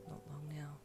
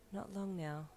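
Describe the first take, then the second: First: Very soft, tender murmur; whispered. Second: Soft, contented wife's murmur; contented sigh. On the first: Husband to pregnant wife in bed, hushed whisper. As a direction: whisper it close to her neck. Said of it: "he whispered with a kiss". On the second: Wife echoes husband in bed, soft contented sigh. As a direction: sigh it gently, at ease. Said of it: "she repeated with a contented sigh". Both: A narrator's reading.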